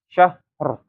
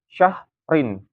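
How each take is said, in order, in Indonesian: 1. Kata ini berakhir dengan bunyi 'r' saja. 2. Kata ini berakhir dengan suku kata 'rin'. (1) "Kalau diwakafkan" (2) "kalau misalkan nggak diwakafkan kan ya"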